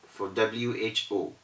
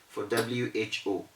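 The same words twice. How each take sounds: The two takes are said the same way.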